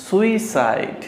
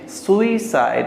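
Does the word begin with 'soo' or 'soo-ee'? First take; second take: soo-ee; soo-ee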